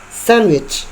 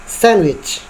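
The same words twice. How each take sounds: Both takes have the same delivery.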